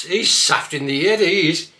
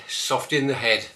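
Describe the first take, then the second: First: Louder, broad Black Country saft; Black Country accent, saft. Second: Said in the usual way. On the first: Shown as a demonstration. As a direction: say it broad, head as 'ed. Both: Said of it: "look at this one".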